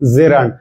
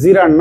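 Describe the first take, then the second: First: The first vowel sounds like 'e'. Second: The first vowel sounds like 'ee'. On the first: The speaker calls it right. "হবে জেরান্ড" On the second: The speaker calls it wrong. "জিরান্ড না"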